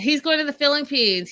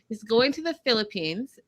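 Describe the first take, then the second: First: It is said at normal speed. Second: It is said more slowly.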